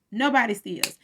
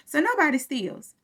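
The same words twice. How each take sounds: First: Said in the usual way. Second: "nobody" lifted high; "nobody" hit hard as the point; stress on nobody. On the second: Real, not acted. Making her point about the car, "nobody" stressed.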